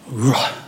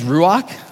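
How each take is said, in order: First: The word ends in a soft breathy sound. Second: The word ends in a hard consonant sound. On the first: The speaker calls it right. "it starts with that ru sound, but then it ends in like a breath" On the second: The speaker calls it wrong. "the way I would read that is ruach, which is wrong"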